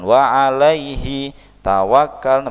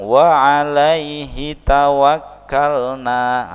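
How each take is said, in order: First: The words are broken apart by a pause. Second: The words run together without any pause. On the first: The speaker calls it wrong. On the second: The speaker calls it right. "tapi langsung"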